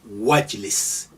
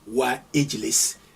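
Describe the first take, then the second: First: The 'i' vowel is dropped, linking wa to jlis. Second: A separate 'i' vowel is heard before jlis. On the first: The speaker calls it right. "you say wajlis" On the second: The speaker calls it wrong. "you don't say wa ijlis"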